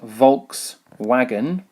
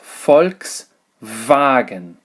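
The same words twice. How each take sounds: First: The word begins with a voiced V sound. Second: The word begins with an unvoiced F sound. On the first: The speaker calls it wrong. "This is not in actual fact Volkswagen" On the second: The speaker calls it right. "it is Volkswagen"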